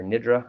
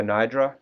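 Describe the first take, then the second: First: "nidra" with a short i, NID-ruh; second-guess "nidra", first syllable rhyming with "lid"; alternative pronunciation. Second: "nidra" with a long i, NY-druh; uncertain pronunciation. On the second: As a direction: say "nidra" as NIGH-druh, first vowel like "eye". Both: Shown as a demonstration. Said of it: "I may be pronouncing that wrong".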